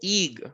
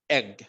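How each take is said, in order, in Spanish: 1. La vocal es larga, como el nombre de la letra. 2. La vocal es corta, como en egg. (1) "yo no digo" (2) "Es un sonido corto de la E"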